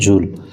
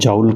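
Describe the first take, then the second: First: The vowel sounds like 'oo' in pool. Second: The vowel sounds like 'ow' in cow. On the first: The speaker calls it right. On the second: The speaker calls it wrong. "అది జౌల్ కాదు"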